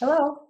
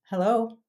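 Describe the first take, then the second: First: The word is said in a high pitch. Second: The word is said in a lower, relaxed pitch. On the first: The speaker calls it wrong. "like in a high register" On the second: The speaker calls it right. "it's a little bit lower"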